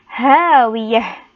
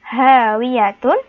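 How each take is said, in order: First: The word ends with a silent h sound. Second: The word ends with a full tun syllable. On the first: "ketika dibaca menjadi hawiyah" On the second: "penulisannya hawiyatun"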